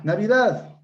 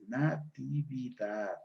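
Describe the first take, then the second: First: NAVIDAD in three syllables, high and loud; syncopated form. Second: NATIVIDAD slowly, syllable by syllable, with TI sounded; full correct form. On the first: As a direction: punch out "Navidad", short form without the TI. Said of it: "Palabra con síncopa". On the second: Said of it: "la palabra correcta es". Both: Shown as a demonstration.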